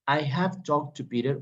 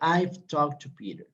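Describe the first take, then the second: First: The words 'I have' are said in full. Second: The words 'I have' are contracted to 'I've'.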